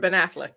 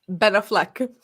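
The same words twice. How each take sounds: First: The stress is on the first syllable. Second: The stress is on the second syllable. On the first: This is the usual way to say the name. The speaker calls it right. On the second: Someone else said it this way, believing it correct. The speaker calls it wrong.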